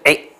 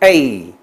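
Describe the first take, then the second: First: The vowel is short and stays plain. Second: The vowel is long and glides into an ee. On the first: The speaker calls it wrong. "不是a" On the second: The speaker calls it right. "后面那个音头是发出e 的e 的声音"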